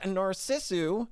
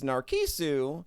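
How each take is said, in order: First: The middle consonant is an s sound. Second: The middle consonant is a k sound. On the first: The speaker calls it right. "This is Narcissu" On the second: The speaker calls it wrong. "which I had been pronouncing as Narkisu"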